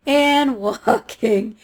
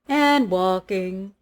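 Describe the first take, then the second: First: Even slower "walking" with a laugh; "walking" drawn out very slowly, laughing. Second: Slow, stretched "walking"; "walking" said slowly and drawn out. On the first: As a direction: stretch "walking" further, laughing at the distance. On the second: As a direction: drag the word "walking" out to show the long walk. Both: Shown as a demonstration. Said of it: "repeated walking, drawn out".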